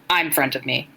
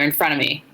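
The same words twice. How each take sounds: First: "I'm" said clearly in place of "in"; literal typo reading. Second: Said in the usual way. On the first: A narrator's reading. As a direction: pronounce "I'm" distinctly, as misprinted. Rereads phrase with the typo.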